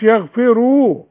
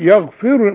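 First: The final vowel is drawn out long. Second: The final vowel is a short u. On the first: The speaker calls it wrong. "وما تقولش يغفروا وتحط لها واو" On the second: The speaker calls it right. "الراء دي مضمومه، بس يغفر لمن يشاء"

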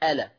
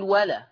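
First: The word begins with a glottal stop. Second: The word begins with a w sound. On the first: The speaker calls it right. "لما تبتدي بيها تحقق الهمزه تاني تقول ألا" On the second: The speaker calls it wrong. "اوعى تبتدي بألا وتقول ولا"

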